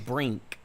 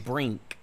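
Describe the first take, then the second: First: The n is made at the back, as ng. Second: The n is made at the back, as ng.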